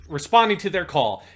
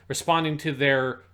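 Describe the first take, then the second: First: Rereading with call, laughing; corrected reading. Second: Cum read as written, cum; cum, puzzled at the typo; typo read literally. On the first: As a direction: call said clearly as call. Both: Shown as a demonstration. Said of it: "someone smacked the keyboard".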